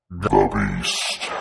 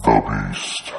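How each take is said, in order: First: Very low growled beast voice; monster voice. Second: Very low growled beast voice, louder; monster voice. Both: Acted. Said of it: "That was awesome".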